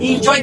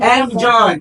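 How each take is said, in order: First: The word begins with an 'in' sound. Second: The word begins with an 'en' sound. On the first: The speaker calls it wrong. "ইনজয় কিন্তু ভুল" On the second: The speaker calls it right. "এটা শুদ্ধ উচ্চারণ হবে এনজয়"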